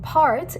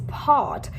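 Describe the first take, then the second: First: The R sound after the vowel is pronounced. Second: The R sound after the vowel is dropped. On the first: The speaker calls it wrong. "It's not part" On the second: The speaker calls it right. "it's part, so make sure you pronounce it the correct way"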